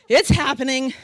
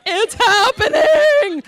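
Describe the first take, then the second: First: Said in the usual way. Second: High, loud, drawn-out wail; movie flashback outburst. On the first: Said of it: "Bridesmaids. Sorry, flashback". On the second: Retold or imitated. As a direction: holler it slowly in hammed-up panic. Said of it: "Sorry, flashback".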